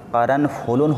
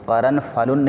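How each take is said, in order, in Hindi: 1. f के बाद का स्वर 'u' की आवाज़ है। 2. f के बाद का स्वर 'a' की आवाज़ है। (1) "फ़ा के ज़म्मा के साथ करनफुलुन होना चाहिए" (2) "करनफलुन नहीं"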